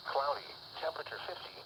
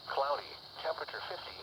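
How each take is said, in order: Both takes have the same delivery.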